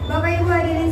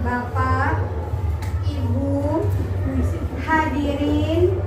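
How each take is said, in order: First: The phrase is spoken very quickly. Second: The phrase is spoken very slowly. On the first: The message may not get across. "jangan terlalu cepat" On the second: The speech becomes boring. "kebalikannya terlalu lama"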